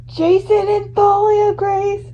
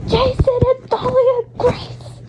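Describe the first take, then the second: First: High, slow, awed gasp of names; stunned realization. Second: Higher still, slow and breathless; even more stunned. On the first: Fan recognizing the siblings, high and awed. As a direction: draw the names out in shock. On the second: Fan repeating the names, even higher in shock. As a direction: lift it into disbelief. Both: Acted.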